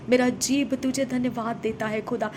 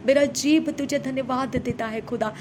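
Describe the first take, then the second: No difference in how they are said.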